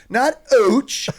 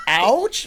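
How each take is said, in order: First: "ouch" mimicked as "oach", pitched way up; mocking Canadian "ouch". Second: "Ouch" with a wide open "ow" vowel, pitched high; American "Ouch". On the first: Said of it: "He's like". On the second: Retold or imitated. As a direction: correct it to a broad American "Ouch".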